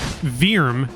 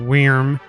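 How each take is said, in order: First: It starts with a V sound, like veerm. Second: It starts with a W sound, like worm. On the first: The speaker calls it right. "V E E R M is the pronunciation" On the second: The speaker calls it wrong. "why I didn't say like um worm"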